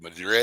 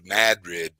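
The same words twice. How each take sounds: First: The stress is on the second syllable. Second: The stress is on the first syllable. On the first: The speaker is not from the town. The speaker calls it wrong. "you knew he wasn't. You knew he wasn't local" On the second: The speaker is from the town. The speaker calls it right. "They get mad at you. They got rid of you"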